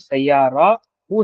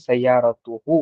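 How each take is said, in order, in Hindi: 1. अंत की आवाज़ h जैसी है, इसमें t नहीं है। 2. hu से पहले एक साफ़ t की आवाज़ आती है। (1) "यहाँ पर हम सैयारा हु नहीं कह रहे" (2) "बल्कि सैयारतुहु कह रहे हैं"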